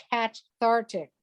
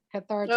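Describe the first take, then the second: First: "cathartic" with a full "cat" as first syllable; punning pronunciation. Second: Said in the usual way. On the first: Shown as a demonstration. Quoting a cat poster's caption, "cathartic" punned as CAT-thartic. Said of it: "ashamed of herself for that pun". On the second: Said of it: "for that pun".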